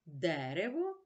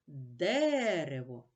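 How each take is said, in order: First: Said in the usual way. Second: Дерево slowly, the first Е louder and held; stress on Дерево. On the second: Shown as a demonstration. Teacher marking the stress for pupils, slow and stretched out. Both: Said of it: "Наголос падає на перший голосний Е".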